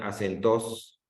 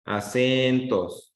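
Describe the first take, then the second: First: "acentos" as a-cen-TOS, rising at the end; stress on last syllable. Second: A-CEEEN-tos, "cen" long, "tos" falling; stress on middle syllable. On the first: Teacher showing a wrong reading, "acentos" stressed on final "tos". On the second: Teacher contrasting two readings, "Acentos" stressed on "cen". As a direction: stretch the "cen" of "Acentos" slowly. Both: Shown as a demonstration. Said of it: "Si lo leo de otra forma".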